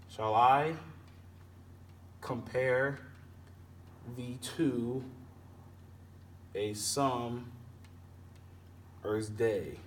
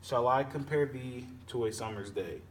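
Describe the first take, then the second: First: Long pauses after each unstressed-stressed pair; measured scansion, "Shall I" first, a beat after each foot; iambic stress, foot by foot. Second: Said in the usual way. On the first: Shown as a demonstration. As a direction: split the line into feet, landing on I, compare, to, summer's, day. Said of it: "unstressed and then stressed syllables". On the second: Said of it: "we'll go ahead and split that in half".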